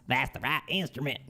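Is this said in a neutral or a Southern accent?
Southern. It is said in a Southern American accent.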